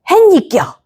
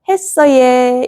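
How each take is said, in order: First: It is said in a blunt, harsh dialect tone. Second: It is said in a soft, gentle dialect tone. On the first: The listener wonders if the speaker is angry. The speaker calls it wrong. "니 화났나 이렇게 물어보게 되니까" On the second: The listener feels spoken to kindly. The speaker calls it right. "했어예 이러면은 에어섭이 되는 거예요"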